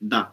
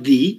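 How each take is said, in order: First: The vowel is a short 'uh' sound. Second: The vowel is a long 'ee' sound. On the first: The next word starts with a consonant. "Consonant দিয়ে শুরু হয় সেই ক্ষেত্রে উচ্চারণ হয় দা" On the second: The next word starts with a vowel. "Vowel দিয়ে শুরু হয় সেই ক্ষেত্রে উচ্চারণ হয় দি"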